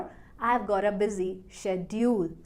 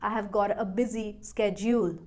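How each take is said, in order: First: The word schedule is said the British way. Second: The word schedule is said the American way. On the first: "British" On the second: "American"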